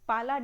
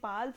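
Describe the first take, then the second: First: The name ends with an extra 'a' vowel. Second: The name ends without an extra vowel. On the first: The speaker calls it wrong. "मैं भी आप ही की तरह पाला ही बोलूँगी" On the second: The speaker calls it right. "वैसे तो इन्हें पाल्स बोला जाता है"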